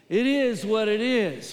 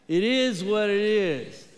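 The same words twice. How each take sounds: First: It is said with a sassy, attitude-filled tone. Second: It is said in a plain, neutral way. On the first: "Say it with a little attitude" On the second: "let's say it together"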